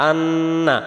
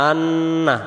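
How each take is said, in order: The two takes are said the same way.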